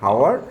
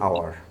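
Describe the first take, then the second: First: The word begins with an h sound. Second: The word begins with a vowel sound. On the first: The speaker calls it wrong. "আমি যদি এটাকে উচ্চারণ বলি তাহলে এটার উচ্চারণটা এইচ ও ইউ আর, মানে হাওয়ার" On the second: The speaker calls it right. "এটাকে আমরা বলি আওয়ার"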